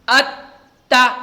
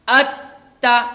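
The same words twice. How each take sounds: No difference in how they are said.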